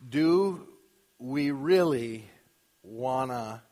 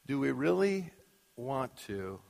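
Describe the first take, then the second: First: "Want to" is reduced to "wanna". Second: "Want to" is said as two full words. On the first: "Not that I don't say wanna, like the lyric of the song" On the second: "I so desperately had to say want to"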